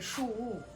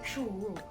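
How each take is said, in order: First: The second syllable begins with a soft w. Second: The same.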